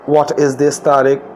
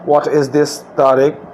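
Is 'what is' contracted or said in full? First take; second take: full; full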